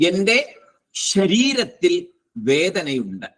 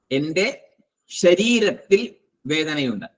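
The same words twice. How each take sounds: First: Slow, with എന്റെ lifted and leaned on; slow teaching line, എന്റെ said as the key word; stress on എന്റെ. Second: Slow, with ശരീരത്തിൽ leaned on and എന്റെ left light; slow repeat that puts the weight on ശരീരത്തിൽ; stress on ശരീരത്തിൽ. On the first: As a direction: lean on എന്റെ, then let ശരീരത്തിൽ വേദനയുണ്ട് fall away. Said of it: "എന്നൊരു വാക്കും വന്നു". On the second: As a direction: push ശരീരത്തിൽ, keep എന്റെ unstressed. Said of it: "ശരീരത്തിൽ നിന്നും വന്നു". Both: Shown as a demonstration.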